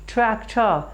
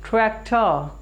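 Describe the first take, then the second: No difference in how they are said.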